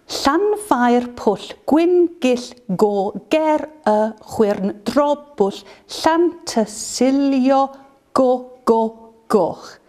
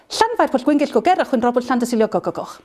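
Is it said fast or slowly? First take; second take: slowly; fast. First: It is said slowly. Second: It is said fast.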